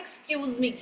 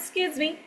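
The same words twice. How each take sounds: First: It is said slowly with every syllable full. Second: It is said quickly with syllables clipped. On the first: The speaker calls it wrong. "हम सब तो कहते हैं ना" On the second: The speaker calls it right. "वो कहते हैं"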